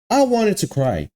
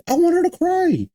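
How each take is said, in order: First: Said in the usual way. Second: Much higher mock-whimpering take; mock whiny crying. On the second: Complaining about the sad ending he wanted, mock whiny crybaby voice. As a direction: whine it like a fake crybaby.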